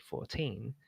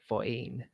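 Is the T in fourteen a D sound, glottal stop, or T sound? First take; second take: T sound; glottal stop. First: The T is said as a clear T. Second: The T is replaced by a glottal stop. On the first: This is how Brits say it. "whereas we say fourteen" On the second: This is how the speaker's native accent says it. "like it's a glottal stop instead of"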